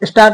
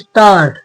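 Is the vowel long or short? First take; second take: short; long. First: The vowel is said short. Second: The vowel is stretched long. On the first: The speaker calls it wrong. "स्टार्ट नहीं" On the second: The speaker calls it right. "यहाँ पे लंबा खिंचा है थोड़ा"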